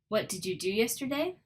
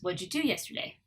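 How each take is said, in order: First: Each word is said fully and separately. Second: The words run together with reduced sounds.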